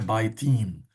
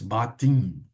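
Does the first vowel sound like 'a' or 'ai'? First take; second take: ai; a. First: The first vowel is the diphthong 'ai'. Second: The first vowel is a plain 'a'. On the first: The speaker calls it wrong. "bait não é baitim" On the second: The speaker calls it right. "mas batim"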